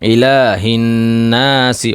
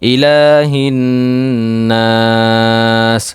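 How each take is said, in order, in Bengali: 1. শেষ শব্দটি একটি ছোট 'i' স্বরে শেষ হয়। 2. শেষ স্বরটি লম্বা করে টানা হয়, তারপর থেমে যায়।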